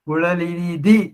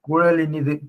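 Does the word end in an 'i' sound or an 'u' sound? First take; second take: i; u. First: The word ends with a short 'i' sound. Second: The word ends with an 'u' sound.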